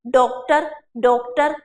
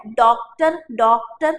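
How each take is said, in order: First: डॉक्टर with a closed 'oh', 'DOKE-tar'; closed o vowel. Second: डॉक्टर with an open 'aw', 'DAWK-tar'; intended open vowel. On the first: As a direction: say डॉक्टर with a Hindi o sound. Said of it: "ओ की मात्रा लगा दो". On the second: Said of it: "जो तो हिंदी में वो क्या है". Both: Shown as a demonstration.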